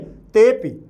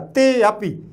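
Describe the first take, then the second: First: The 'a' vowel is not pronounced aloud. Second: The 'a' vowel is pronounced aloud. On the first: The speaker calls it right. "बाहर उच्चारण नहीं होना चाहिए आ का" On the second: The speaker calls it wrong. "ऐसे नहीं"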